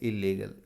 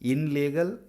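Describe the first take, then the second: First: It starts with an 'il' sound before 'legal'. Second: It starts with an 'in' sound before 'legal'. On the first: The speaker calls it right. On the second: The speaker calls it wrong.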